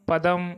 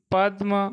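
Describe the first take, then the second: First: पदम with a full vowel after द, 'pa-dam'; पूरा द. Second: पद्म with d running straight into m, 'pad-ma'; no vowel between द and म in पद्म; आधा द. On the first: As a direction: open up the द in पदम. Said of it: "दूसरे का पदम". (पदम में द पूरा बोलें) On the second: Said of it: "यहाँ दे आधा बोलेगा". (पद्म में द आधा बोलें) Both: Shown as a demonstration.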